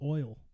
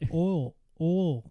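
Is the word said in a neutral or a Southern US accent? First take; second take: neutral; Southern. First: The word is said in a neutral accent. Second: The word is said in a Southern US accent. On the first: "instead of oil" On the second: "Southerners say oil"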